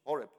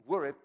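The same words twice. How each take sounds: First: Horeb said as "WOR-ih", shorter and settled, with a falling tone; corrected pronunciation. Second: Horeb said haltingly, as "WOR-ih", with a falling tone; unsure pronunciation. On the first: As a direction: Horeb again, quick and sure, stressing the first syllable. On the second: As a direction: try Horeb uncertainly, stressing the first syllable. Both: Shown as a demonstration. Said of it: "how do you pronoun-, pronounce that in English?".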